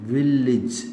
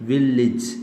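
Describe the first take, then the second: The two takes are said the same way.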